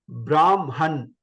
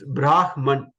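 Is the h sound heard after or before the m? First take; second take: after; before. First: The h sound comes after the m. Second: The h sound comes before the m. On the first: The speaker calls it wrong. "So it's not Brahman" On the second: The speaker calls it right. "It's Brahman. First ha comes and then ma comes"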